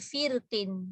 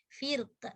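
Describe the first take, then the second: First: The word ends with an added -in syllable. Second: The word ends abruptly on the q sound. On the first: The reader continues into the next word. "nak sambung kan" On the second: The reader stops after this word. "Kalau dia berhentilah"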